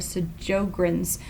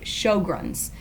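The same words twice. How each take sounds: First: The first syllable does not sound like 'show'. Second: The first syllable sounds like 'show'. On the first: The speaker calls it wrong. "You want to say" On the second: The speaker calls it right. "but it's actually Sjogren's, kind of like S H O W G R U N S"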